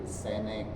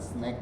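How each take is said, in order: First: A vowel is inserted, making two syllables. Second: It is said as one syllable. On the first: "orang Kalbar bilang ... senek" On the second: "bukan snack"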